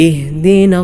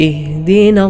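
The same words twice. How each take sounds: The two takes are said the same way.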